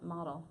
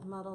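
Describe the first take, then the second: First: The first vowel sounds like in 'model'. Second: The first vowel sounds like in 'puddle'. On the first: The speaker calls it wrong. "am I saying it right?" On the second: The speaker calls it right. "Muddle like puddle"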